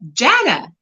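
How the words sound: The name is said with an American pronunciation. "the American way"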